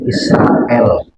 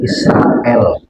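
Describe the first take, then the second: First: The r is light, with an 'a' vowel. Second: The r is light, with an 'a' vowel.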